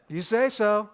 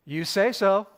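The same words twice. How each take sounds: First: "You say so" with the weight on "say"; a calm repeat that stresses "say"; Jesus' reply again. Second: "You say so" said firmly with a fall on "so"; Jesus' reply. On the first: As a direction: lean into "say", unhurried. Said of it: "a very Jesus response". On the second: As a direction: let "so" land, calm and firm. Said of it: "He says". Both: Retold or imitated.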